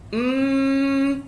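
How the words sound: The nasal hum is strong and long. "naik atas lagi, dia bunyi idgham"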